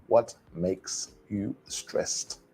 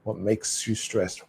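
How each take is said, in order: First: Slow, softer "What... makes... you... stressed", word by word; deliberate unlinked pronunciation demo; each word separate. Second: "What makes you stressed" as one joined phrase, no gaps; smooth connected-speech demo, "makes you" linked; linked words. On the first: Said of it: "pronounce each word separately". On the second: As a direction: run "makes you" together as "make-syou". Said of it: "That's difficult to say when you". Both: Shown as a demonstration.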